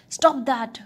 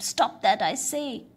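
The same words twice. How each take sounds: First: Loud booming giant shout; booming thunder voice. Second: Loud commanding giant boom; booming thunder voice. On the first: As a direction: boom it out like thunder. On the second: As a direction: thunder the order down. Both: A narrator's reading. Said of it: "boomed the giant".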